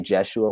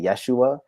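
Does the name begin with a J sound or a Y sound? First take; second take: J sound; Y sound. First: The name begins with a J sound. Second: The name begins with a Y sound. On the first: It blends the original name with a modern form. "I just say Jeshua with a J" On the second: It is the original Hebrew form. "in the Hebrew we'd say Yeshua"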